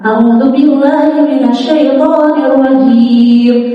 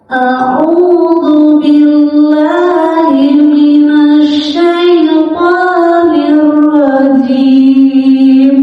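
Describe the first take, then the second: First: It is recited fast. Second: It is recited very slowly. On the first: "Ini tempo bacaan yang paling cepat" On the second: "kalau tahqiq yang lambat banget"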